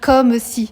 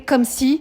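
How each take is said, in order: First: The final e of comme is pronounced. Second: The final e of comme is silent. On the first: The speaker calls it right. "Vous devez dire comme si" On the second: The speaker calls it wrong. "si vous lisez comme si, c'est pas bon"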